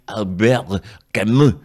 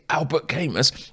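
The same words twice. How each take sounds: First: The name is said in a French way. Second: The name is said in an anglicized way. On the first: The speaker calls it right. "It's actually" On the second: The speaker calls it wrong. "when I murdered the name"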